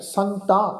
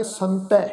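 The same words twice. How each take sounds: First: ਸੰਤਾਂ ending in nasal -aan; nasal long a. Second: ਸੰਤੈ ending in an open ai. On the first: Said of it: "ਕੰਨਾਂ ਉੱਪਰ ਬਿੰਦੀ ਸਹਿਤ". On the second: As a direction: end ਸੰਤੈ on ai, not aa. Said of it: "ਦੁਲਾਵਾਂ ਵਾਂਗੂ ਉਚਾਰਨ ਕਰਾਂਗੇ". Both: Shown as a demonstration.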